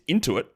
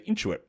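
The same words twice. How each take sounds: First: It is said without the Australian reading. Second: It is said with an Australian reading. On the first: "It's clearly not. It's Intuit" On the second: "but I would say Intuit"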